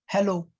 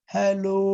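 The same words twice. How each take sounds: First: Hello is said flat and short. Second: Hello is drawn out for a very long time.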